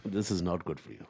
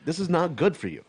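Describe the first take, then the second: First: Put-on lower, softer British Indian accent. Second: Imitating mom. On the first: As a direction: redo mom's line in her British Indian accent. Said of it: "It's not how she said it". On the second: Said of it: "my mom's going".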